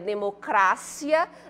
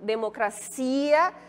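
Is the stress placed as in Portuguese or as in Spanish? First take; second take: Spanish; Portuguese. First: The stress falls where Spanish places it. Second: The stress falls where Portuguese places it. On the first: "E em espanhol, como é que ficaria?" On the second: "quando a gente pronuncia na língua portuguesa"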